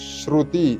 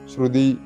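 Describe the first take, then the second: First: The second syllable begins with a voiceless t sound. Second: The second syllable begins with a voiced d sound. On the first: The speaker calls it right. "ശ്രുതി എന്ന് തന്നെ വരണം" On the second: The speaker calls it wrong. "തായ്ക്ക് പകരമായിട്ട് ദ എന്ന് നമ്മൾ മലയാളത്തിൽ പൊതുവെ ഉച്ചരിക്കാറുണ്ട്"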